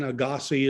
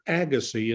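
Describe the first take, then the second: First: The stress falls on a later syllable. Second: The stress falls on the first syllable. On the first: This is how the name was said in Switzerland. "it may have been Agassi in Switzerland" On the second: This is how the name was said in the United States. "pronounced it with the accent on the first syllable"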